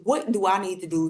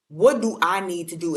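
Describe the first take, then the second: First: Said in the usual way. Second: Lightly put-on comedian voice, a bit louder; a hint of a comedian impression; Cat Williams. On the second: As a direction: punch it up slightly, like imitating a comedian. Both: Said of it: "In my Cat Williams voice".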